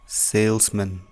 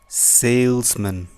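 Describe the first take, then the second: Both takes have the same delivery.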